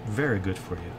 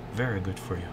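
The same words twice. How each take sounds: The two takes are said the same way.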